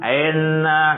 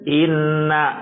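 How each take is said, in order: First: The first vowel sounds like e. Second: The first vowel sounds like i. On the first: The speaker calls it wrong. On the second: The speaker calls it right. "Harus seperti mengucapkan I"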